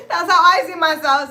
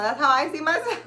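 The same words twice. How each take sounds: First: Laughing loud and high through it. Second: Said in the usual way. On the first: Real, not acted. Cracking up at her own goddess fantasy, laughing loud. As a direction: crack up as you repeat it.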